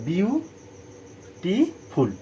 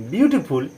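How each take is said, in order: First: বিউটিফুল slowly in three beats, বিউ, টি, ফুল; split into syllables. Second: Said in the usual way. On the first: Shown as a demonstration. Teacher recapping three syllables, বিউটিফুল broken into slow beats. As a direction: pause after বিউ and after টি in বিউটিফুল. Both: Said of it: "তিনবার আমরা উচ্চারণ করছি".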